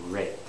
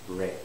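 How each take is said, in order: The two takes are said the same way.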